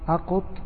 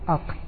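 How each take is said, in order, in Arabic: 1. القاف متبوعة بحركة u. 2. القاف متبوعة بلا حركة. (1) "وضمة" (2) "وسكون"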